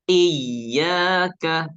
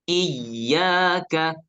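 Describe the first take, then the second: No difference in how they are said.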